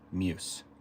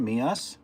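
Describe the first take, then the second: First: It is said as one syllable, like 'muse'. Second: It is said as two syllables, like 'me us'. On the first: "Second pronunciation, muse. like an English person trying to say the word moose" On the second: "First pronunciation, me us. like the words me and us"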